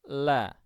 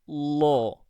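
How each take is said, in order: First: The L is thin, with a relaxed, open throat. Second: The L is thick, with a hollowed, tense tongue. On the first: "Dan lam tipis" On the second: "ketika kita mengucap lam tebal"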